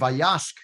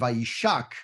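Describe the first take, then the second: First: It is said as vayashk, with short vowels. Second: It is said as vayishak, with an i sound. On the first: He gave the animals water. "which means Vayashk is to give the water" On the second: He kissed her. "to kiss"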